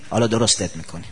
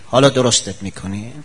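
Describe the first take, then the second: First: Low, soft menacing promise; a quiet warning of what's coming; low, soft grave warning; quiet threat. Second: Rising taunt, not dropping; taunting threat with rising tune. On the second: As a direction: throw it as a challenge. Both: Acted.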